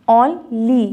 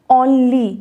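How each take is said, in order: First: "only" in two beats, on, then ly; split into syllables. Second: Said in the usual way. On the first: Shown as a demonstration. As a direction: say "only" slowly with a gap between on and ly. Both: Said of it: "तो वो टू syllable".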